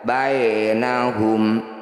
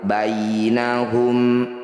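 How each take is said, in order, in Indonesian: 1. Bunyi 'bai' diucapkan keras, tidak lembut. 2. Bunyi 'bai' diucapkan dengan lembut dan halus. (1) "jangan dibaca bainahum, itu berarti belum lembut" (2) "Bunyi ya sukunnya baca dengan lembut atau lunak"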